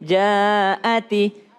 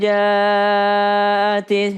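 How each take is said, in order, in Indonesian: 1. Hentian glotal di tengah jelas. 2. Hentian glotal di tengah hilang. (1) "Jadi harus jelas jaati jaati" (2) "Kadangkala terlupakan kayak faida jaati ati"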